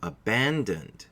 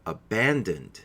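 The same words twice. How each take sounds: First: Abandoned said slowly, three syllables ending in d; slow abandoned for learners to copy; abandoned, stressed ban, final d sounded; slow model repeat. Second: Abandoned with a clear d at the end; abandoned, three syllables, stressed ban; model pronunciation. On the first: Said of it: "Please try it". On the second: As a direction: demonstrate abandoned, a-BAN-dund, ending on d. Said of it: "it sounds like this". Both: Shown as a demonstration.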